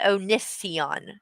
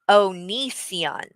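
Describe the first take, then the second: First: The second syllable does not sound like knee. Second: The second syllable sounds like knee. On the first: The speaker calls it wrong. "not Onision" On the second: The speaker calls it right. "Oni, like your knee"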